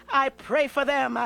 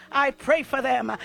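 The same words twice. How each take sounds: The two takes are said the same way.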